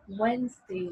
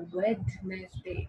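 First: The d sound is silent in the word. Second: The d sound is pronounced in the word. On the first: The speaker calls it right. "Its right pronunciation is Wednesday" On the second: The speaker calls it wrong. "not a Wednesday"

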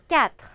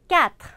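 The two takes are said the same way.

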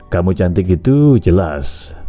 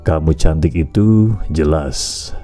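First: It is spoken at a quicker, ordinary pace. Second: It is spoken slowly with a low ending.

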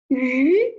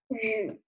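First: The pitch rises from mid to high. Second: The pitch dips low and then rises. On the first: "二声读鱼" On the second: "三声读雨"

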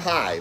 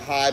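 First: The greeting sounds warm and fully present. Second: The greeting sounds distracted and absent-minded.

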